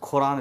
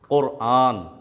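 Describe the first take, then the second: First: The word is said in the casual everyday way. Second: The word is said with careful Arabic articulation. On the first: The speaker calls it wrong. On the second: The speaker calls it right.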